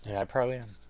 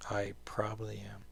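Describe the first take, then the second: First: Said in the usual way. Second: Whispered aside, no voice. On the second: Real, not acted. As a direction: breathe it out as a whispered admission. Repeated as whisper.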